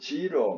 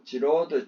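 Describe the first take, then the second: First: The final d sound is dropped. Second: The final d sound is pronounced.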